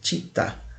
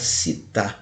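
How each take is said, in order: First: The word is said with Italian sounds. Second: The word is said with Brazilian Portuguese sounds. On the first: This is the proper Italian pronunciation. The speaker calls it right. "a pronúncia correta em italiano seria città" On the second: This is how many people commonly say it. The speaker calls it wrong. "muita gente fala città"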